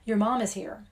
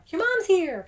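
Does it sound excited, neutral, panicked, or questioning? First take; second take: neutral; excited. First: It is said in a plain, neutral way. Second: It is said in a happy, excited way.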